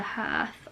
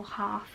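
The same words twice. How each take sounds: First: "Hearth" said to rhyme with "earth"; unsure pronunciation. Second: "Hearth" said with an "ah" vowel; alternative pronunciation. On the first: Reader trying a book title's word, unsure pronunciation. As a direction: say "Hearth" with an "ur" vowel, like "hurth". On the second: Reader offering a second try at a title word, alternative pronunciation. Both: Shown as a demonstration. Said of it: "I don't know how to say that word".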